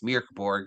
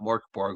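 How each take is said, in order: First: The first vowel sounds like the vowel in 'bird'. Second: The first vowel sounds like the vowel in 'fork'. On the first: The speaker calls it right. "it's Mirkborg" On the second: The speaker calls it wrong. "not Morkborg. We've been saying it wrong"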